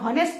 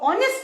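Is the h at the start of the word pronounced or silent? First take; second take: pronounced; silent. First: The word begins with an h sound. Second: The word begins with a vowel sound. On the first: The speaker calls it wrong. "अगर आप इसको हावर और हॉनेस्ट पढ़ोगे तो तो आप ए लगा दोगे" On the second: The speaker calls it right. "एच silent है"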